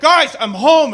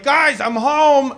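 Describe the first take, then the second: First: It is said louder, almost shouted. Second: It is said at a normal, quieter volume.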